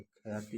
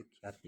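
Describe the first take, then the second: First: ख्याति with a vowel after ख, as kha-yaa-ti; split consonant cluster. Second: ख्याति with kh and y joined, as khyaa-ti; joined consonant cluster. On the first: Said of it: "खड़ी पाई को हटाकर शब्द का संयुक्त रूप". (ख्याति को अलग करके "ख-या-ति" बोलें) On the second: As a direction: say ख्याति in two syllables, khyaa-ti. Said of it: "ऐसे ख्याति लिखा है". (ख्याति को संयुक्त "ख्या-ति" बोलें) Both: Shown as a demonstration.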